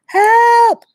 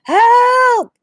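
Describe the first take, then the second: First: High, loud cry for help; calling for help. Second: High, loud shout for help. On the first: Boy trapped in a hole calling out, loud and high. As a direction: yell up out of the hole. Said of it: "He began to call out". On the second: Boy shouting again from the hole, loud and high. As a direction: throw it up to the sky again. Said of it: "shouted again". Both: A narrator's reading.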